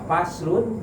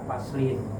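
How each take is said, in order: First: The word ends with the sound -un. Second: The word ends with the sound -in. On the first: This is a chapter. "bisa dibaca faslun" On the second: Look at this chapter. "bisa dibaca faslin"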